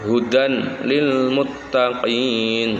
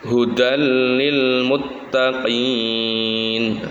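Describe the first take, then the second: First: The n is kept clearly before the l. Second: The n merges into the following l sound. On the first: The speaker calls it wrong. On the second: The speaker calls it right.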